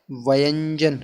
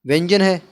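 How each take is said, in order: First: व्यंजन stretched out slowly, opening sound split into two syllables; drawn-out enunciation. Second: Said in the usual way. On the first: Shown as a demonstration. Teacher repeating the key term to pupils, व्यंजन slowly drawn out. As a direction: draw out व्यंजन as va-yan-jan.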